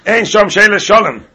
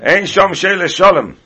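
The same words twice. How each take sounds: First: Raised louder, higher singsong; mock proclamation. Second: Slow, louder, higher singsong; slower mock proclamation. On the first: Retelling shower reply to Shalom, hammed-up declaiming. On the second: Repeating the joke line to students, slow mock chant. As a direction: drag it out as a joke ruling.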